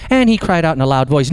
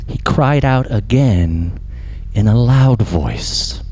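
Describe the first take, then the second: First: Lightly mimicked tidy Bible reading; slightly higher, quick recital of a verse; church Bible reader. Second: Slow, drawn-out scripture quote; weighty scripture reading. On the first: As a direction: read it briskly, like a practised church reader. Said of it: "a good Bible reader and they read". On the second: Shown as a demonstration. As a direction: stretch each phrase out slowly and solemnly. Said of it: "I know we like to read that in".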